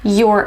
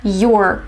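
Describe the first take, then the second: First: It is said as one contracted syllable. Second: It is said as one contracted syllable.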